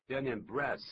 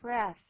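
First: Breath said without the th, tongue kept in; breath ending flat without the th sound; wrong breath. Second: Breath with tongue between teeth for th; correct breath. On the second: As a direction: end breath on a clear th. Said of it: "应该怎么这样念的". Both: Shown as a demonstration.

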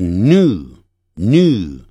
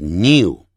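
First: New as "noo", no y glide; slow American "new", glide dropped; American pronunciation. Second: New with a y glide, "nyoo"; British "new" as nyoo; British pronunciation. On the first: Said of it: "一的音省略掉". (美式发音，new省掉一的音) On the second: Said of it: "在英式英语中". (英式发音，new带一的音) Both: Shown as a demonstration.

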